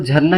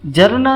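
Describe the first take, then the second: First: The first consonant has a breathy aspirated release. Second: The first consonant has a plain unaspirated release. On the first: The speaker calls it right. "झरना ही बोलना है, झ बोलना है" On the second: The speaker calls it wrong. "जरना नहीं बोल सकते हैं"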